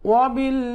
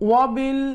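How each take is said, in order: No difference in how they are said.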